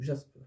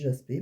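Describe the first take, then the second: First: The word ends on the consonant, no vowel. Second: The word ends with an 'ay' vowel sound. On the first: "ma fille m'a dit ça se dit jaspe" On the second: "l'autre jour j'avais dit jaspé"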